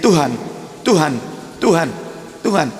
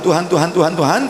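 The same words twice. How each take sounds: First: Each word is said separately with clear breaks. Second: The words are run together without breaks. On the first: The speaker calls it right. "jangan disambung-sambung" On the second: The speaker calls it wrong. "nanti khawatir ... tuh jadinya"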